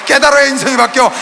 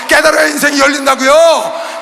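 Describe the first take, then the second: First: Said in the usual way. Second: 깨달아야 shouted slow and drawn out; slow shouted 깨달아야, falling at the end; stressed 깨달아야. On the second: Acted. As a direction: hammer 깨달아야 home. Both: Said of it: "repeated with stronger delivery".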